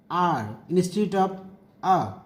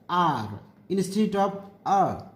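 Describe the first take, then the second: The two takes are said the same way.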